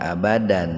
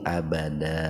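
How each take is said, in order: First: The word ends with an n sound. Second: The word ends with a long a vowel. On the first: The speaker calls it wrong. "jadi enggak abadan" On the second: The speaker calls it right. "Kalau mau berhenti dibacanya mad iwan, tapi abada"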